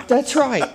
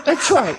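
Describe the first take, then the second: First: Said in the usual way. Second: Laughing. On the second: Real, not acted. Laughing agreement after joke.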